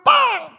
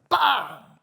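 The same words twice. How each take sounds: First: It is said much louder. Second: It is said at normal volume.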